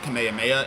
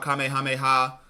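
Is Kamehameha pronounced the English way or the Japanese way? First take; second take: English; Japanese. First: It is pronounced with an English-style pronunciation. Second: It is pronounced with a Japanese-style pronunciation. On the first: This is how English dubs say it. "they pronounce it Kamehameha in pretty much every English iteration" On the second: This is how the original Japanese says it. "in the Japanese, it's called Kamehameha"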